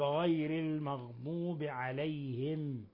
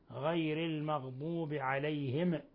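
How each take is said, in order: First: The final m is held still without any echo. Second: The final m is released with a bouncing echo. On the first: The speaker calls it right. "والصواب غير المغضوب عليهم من غير تحريك وقلقلة" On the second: The speaker calls it wrong. "ومن الأخطاء قلقلة ميم عليهم حين الوقف عليها"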